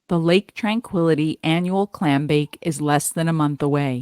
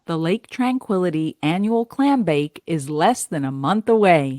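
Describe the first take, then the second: First: It is read flatly, without a smile. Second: It is read warmly with a smile.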